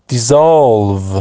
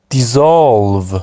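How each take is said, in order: No difference in how they are said.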